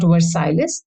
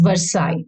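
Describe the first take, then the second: First: Versailles with the silent letters sounded; wrong pronunciation. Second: Versailles with the double L and S silent; correct pronunciation. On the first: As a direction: say Versailles as spelt, ending "sales" or "siles". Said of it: "double L E S is silent". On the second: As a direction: say Versailles French-style, ending like "sigh". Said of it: "it is pronounced as Versailles". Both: Shown as a demonstration.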